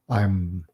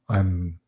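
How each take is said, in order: Both takes have the same delivery.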